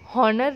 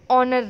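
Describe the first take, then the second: First: The word begins with a sounded h. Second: The word begins with a vowel, h silent. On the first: The speaker calls it wrong. "हम हॉनर read नहीं करते" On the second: The speaker calls it right. "हम ऑनर read करते हैं"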